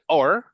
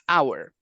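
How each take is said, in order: First: It is said quickly, reduced to sound like 'or'. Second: It is said slowly and fully, like 'hour'. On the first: "it's just like a quick version of our" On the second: "the slow version and, and the most enunciated version is our"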